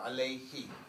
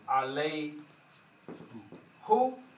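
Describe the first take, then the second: First: The pronoun ends with an 'ee' vowel. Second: The pronoun ends with an 'oo' vowel. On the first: The speaker calls it right. "Change it to a kasra" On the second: The speaker calls it wrong. "Instead of saying alay who"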